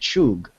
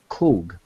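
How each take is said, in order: First: The word begins with a 'ch' sound. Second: The word begins with a 'k' sound. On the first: This is how an English reader would read the spelling. "in the English, we would probably pronounce it chug" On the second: This is how the word is said in Hebrew. "but in the Hebrew, it's pronounced kug"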